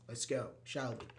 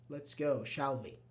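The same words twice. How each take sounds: First: "Let's go, shall we?" with the tune rising up on "we"; rising intonation. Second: Said in the usual way. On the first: Shown as a demonstration. Teacher shows a suggestion tag with a rising question tune. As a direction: ask it, lifting the end of "shall we". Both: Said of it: "with a rising intonation because you're asking".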